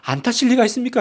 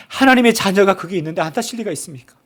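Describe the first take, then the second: First: 리가 lifted, question rising at the end; rhetorical rise. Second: 하나님의 stressed, falling firm finish; emphatic assurance. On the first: Preacher answers the congregation's fear, rising on 리가. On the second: Preacher assures the congregation, stress on 하나님의 and falling. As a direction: land on 하나님의 and settle down. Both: Shown as a demonstration.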